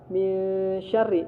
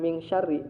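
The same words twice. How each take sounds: First: The nasal n sound is held before sh. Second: The nasal n sound is cut short before sh. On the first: The speaker calls it right. "Kemudian ditahan. Nih gunanya ditahan. Awas jangan lupa" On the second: The speaker calls it wrong.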